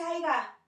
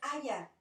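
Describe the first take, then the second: First: The word has a g sound in the middle. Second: The word has a y sound in the middle. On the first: This is a lower-class form. The speaker calls it wrong. "no se dice aiga" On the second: This is the standard, upper-class form. The speaker calls it right. "es haya"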